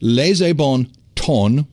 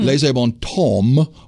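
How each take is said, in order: First: The word temps ends with an N sound. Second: The word temps ends with an M sound. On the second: "with an M"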